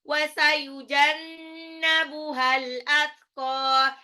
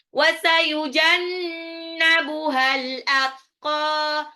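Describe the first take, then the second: No difference in how they are said.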